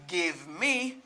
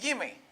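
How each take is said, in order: First: Both words are said fully and separately. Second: The two words blend into one reduced word. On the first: "Au lieu me di give me" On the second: "me di gimme"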